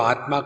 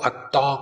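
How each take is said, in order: First: The cluster is fully pronounced as 'tm'. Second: The cluster becomes a doubled 't' sound. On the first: "आत्मा होगा" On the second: "बंगालियों में ... ठीक से उच्चारण नहीं कर सकते ... अत्ता कहेंगे"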